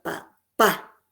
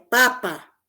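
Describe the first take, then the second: First: The stress is on the last syllable. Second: The stress is on the first syllable.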